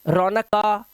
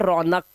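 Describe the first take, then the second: First: The word ends with an added final a vowel. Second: The word ends on the bare k consonant. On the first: The speaker calls it wrong. "ये गलत है" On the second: The speaker calls it right. "हम इसे पढ़ते हैं रौनक"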